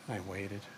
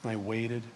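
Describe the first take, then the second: First: 1 fading away. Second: Said in the usual way. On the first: Shown as a demonstration.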